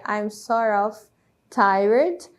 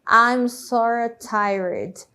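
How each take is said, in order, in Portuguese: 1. As duas palavras 'sort of' são ditas separadamente. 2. As palavras se juntam e viram 'sorta'. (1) "que na verdade seria" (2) "na hora da pronúncia acontece essa questão aí da junção"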